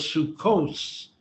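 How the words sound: The word ends with an S sound. "The taf without the dot was S"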